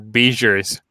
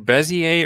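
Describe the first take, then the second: First: The word is pronounced in an English-like way. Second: The word is pronounced in a French-like way.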